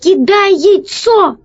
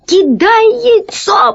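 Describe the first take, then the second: First: High, slow, urgent call; shout. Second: Very high, strained croak; croaked shout. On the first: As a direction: call out the order, stretching the words. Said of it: "крикнул Пашка". (протяжный высокий крик) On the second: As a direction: squeeze out a desperate, choked order. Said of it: "прохрипел весельчак У". (сдавленный отчаянный хрип) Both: A narrator's reading.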